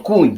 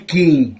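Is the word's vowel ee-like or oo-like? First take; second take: oo-like; ee-like. First: The vowel is an oo-like sound. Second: The vowel is an ee-like sound. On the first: This is how people here say it. "Тут кунь" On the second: This is how people in the other village say it. "А там кажуть кінь"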